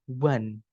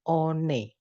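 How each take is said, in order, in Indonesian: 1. Kata ini terdengar seperti 'wan', berbeda dengan ejaannya. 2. Kata ini dibaca sesuai dengan ejaannya. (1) "bacanya adalah one" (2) "ini bacanya bukan one"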